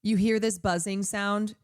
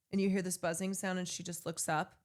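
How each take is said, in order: First: Said in the usual way. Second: Softer, hushed trailer voice; fading hushed suspense; hushed movie trailer. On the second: Shown as a demonstration. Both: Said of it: "imagining the movie version".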